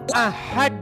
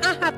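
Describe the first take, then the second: First: It is said with a careful Arabic-style sound. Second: It is said with a plain Indonesian-style sound. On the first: The speaker calls it right. "Harus begitu" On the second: The speaker calls it wrong.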